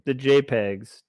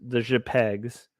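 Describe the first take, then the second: First: Said in the usual way. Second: "J pegs" slowed into zhuh-PEGS; "J pegs" said as a French-sounding single word; mock-French pronunciation. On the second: Shown as a demonstration. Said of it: "how I like to pronounce".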